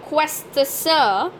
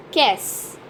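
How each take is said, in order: First: Quest sir read as spelt, drawn out with the T sounded; wrong pronunciation. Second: Qu'est-ce as one syllable, "kess", with silent T; correct pronunciation. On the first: Teacher warning learners of the mistake, quest sir slowly spelt-out. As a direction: slowly say "quest sir" in separate English syllables. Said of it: "Not quest sir, but as". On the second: Teacher correcting the mistake, qu'est-ce said as one "kess". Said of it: "is pronounced altogether as in". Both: Shown as a demonstration.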